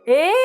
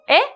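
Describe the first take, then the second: First: It is drawn out, showing more surprise. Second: It is said short, as one syllable.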